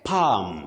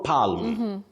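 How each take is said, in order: First: The L is silent. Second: The L is pronounced. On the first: The speaker calls it right. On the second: The speaker calls it wrong.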